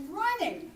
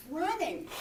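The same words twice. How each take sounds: The two takes are said the same way.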